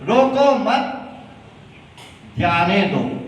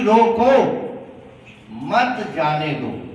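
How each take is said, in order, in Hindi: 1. विराम 'mat' के ठीक बाद आता है। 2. विराम 'roko' के ठीक बाद आता है।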